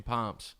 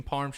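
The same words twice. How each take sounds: First: Palms for parms, the r dropped; r-less parms. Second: Said in the usual way. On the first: Retold or imitated. Imitating mom's word for parms, r-less "pahms". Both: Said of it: "She also calls chicken parms chicken palms".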